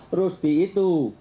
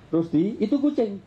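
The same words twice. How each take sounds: First: Slow "Rusdi itu", held and closing on itu; wrong phrasing, slow; wrong intonation. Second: "Rusdi, itu kucing" with a break after Rusdi, falling on kucing; right phrasing. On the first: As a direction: drag out "Rusdi itu" as a full statement. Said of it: "kalau saya intonasinya salah". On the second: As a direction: call the name, then warn. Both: Shown as a demonstration.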